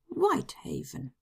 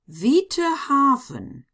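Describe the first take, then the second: First: The name is read with English letter sounds. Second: The name is read with German letter sounds. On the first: "in English" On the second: "pronounce them in German"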